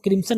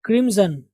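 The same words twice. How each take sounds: First: क्रिम्सन with a hissed "s"; wrong pronunciation. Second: क्रिम्सन with a buzzing "z", as "krim-zun"; correct pronunciation. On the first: Teacher warning learners, क्रिम्सन with a plain "s". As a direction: say क्रिम्सन quickly as "krim-sun". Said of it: "इसको आप क्रिम्सन नहीं पढ़ेंगे". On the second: Teacher modelling for learners, क्रिम्सन as "krim-zun". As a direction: say क्रिम्सन carefully with "z" for s. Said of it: "क्या पढ़ेंगे?". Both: Shown as a demonstration.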